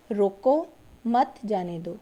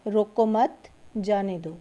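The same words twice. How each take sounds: First: "روکو" set apart, then "مت جانے دو" run together; pause after روکو. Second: "روکو مت" run together, break, then "جانے دو"; pause after مت. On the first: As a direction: break right after روکو, keep مت with جانے دو. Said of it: "روکو کے بعد علامت لگائی گئی ہے". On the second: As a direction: join مت onto روکو and pause before جانے دو. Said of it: "اس طرح سے بھی لکھ سکتے ہیں". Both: Shown as a demonstration.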